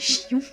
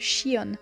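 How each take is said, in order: First: The name is pronounced the French way. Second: The name is pronounced the English way. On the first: "le nom en français c'est" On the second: "en anglais on le prononce"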